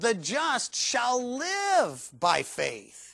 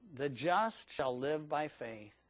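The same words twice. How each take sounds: First: The stress is on "shall live". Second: The stress is on "the just".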